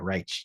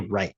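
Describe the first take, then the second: First: It is said in an imitated Irish accent. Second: It is said in a plain American accent. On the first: "They'd be like, right. It's like this weird other sound" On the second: "they don't say right"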